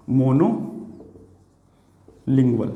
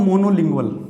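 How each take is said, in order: First: "monolingual" in two parts, long pause after "mono"; lower, drawn-out "monolingual", broken for note-taking; slow dictation. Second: Said in the usual way. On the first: Shown as a demonstration. Teacher writing out the new word for students, slow dictation.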